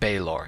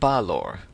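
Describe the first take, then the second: First: The first syllable has an 'ay' vowel. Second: The first syllable has an 'ah' vowel. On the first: This is how it was said in the earlier video. "I pronounced it Baylor in yesterday's video" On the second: This is how those who know the figure's origins say it. "To them, his name is pronounced Balor"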